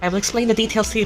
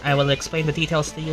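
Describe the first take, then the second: First: It is said in a put-on character accent. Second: It is said in the speaker's natural voice. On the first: The speaker calls it right. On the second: The speaker calls it wrong.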